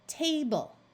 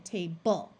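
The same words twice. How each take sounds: First: The stress is on the first syllable. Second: The stress is on the second syllable. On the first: The speaker calls it right. "we are going to accent the first syllable" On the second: The speaker calls it wrong. "rather than"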